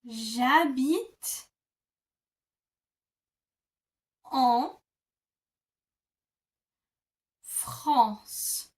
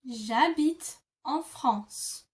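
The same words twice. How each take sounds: First: It is said slowly, part by part. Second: It is said quickly, all in one.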